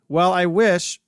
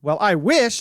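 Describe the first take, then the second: First: It is said plainly, without extra emphasis. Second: It is said with strong, heavy emphasis.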